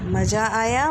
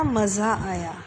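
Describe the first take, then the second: First: मज़ा said maja with hard j; j sound. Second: मज़ा said maza with z; z sound. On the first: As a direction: say मज़ा with j as in jam. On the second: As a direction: buzz the z in मज़ा. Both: Shown as a demonstration. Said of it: "मेले में बहुत मज़ा आया".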